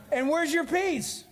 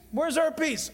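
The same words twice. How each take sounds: First: Your pressed high and hard; preacher asks the congregation where's their peace, stressing your. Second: Our pressed high and hard; stress on our. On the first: Pastor to his church, leaning on your in where's your peace. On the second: Pastor to his church, leaning on our in where's our peace. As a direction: turn it on us all, stressing our. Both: Shown as a demonstration.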